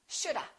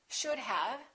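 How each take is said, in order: First: Have is reduced to a weak a sound. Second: Have is said in full with its v.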